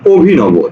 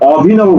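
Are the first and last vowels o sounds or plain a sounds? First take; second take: o sounds; plain a. First: The first and last vowels are o sounds. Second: The first and last vowels are plain a sounds. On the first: The speaker calls it right. "কি বলছি অভিনব ... ও আছে দুইটা" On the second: The speaker calls it wrong. "এই ও অটা কিন্তু অভিনব বলি না"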